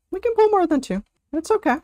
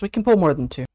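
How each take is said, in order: First: Much higher sing-song take of "We can pull more than two"; high mock voice. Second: Said in the usual way. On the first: Shown as a demonstration. Streamer teasing the group to pull more, high. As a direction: squeak it as a chirpy mock plea. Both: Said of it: "repeated in a new voice".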